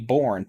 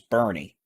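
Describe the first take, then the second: First: It sounds like 'Bourne', one syllable. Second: It sounds like 'Bernie', two syllables. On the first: The speaker calls it wrong. "I always say Bourne" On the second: The speaker calls it right. "but it's Bernie"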